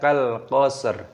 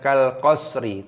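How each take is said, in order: First: The last word ends on a bare 'r' consonant. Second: The last word ends with a short 'i' vowel. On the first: The speaker calls it right. "tapi dibaca kal qasr" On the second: The speaker calls it wrong. "bukan kal qasri"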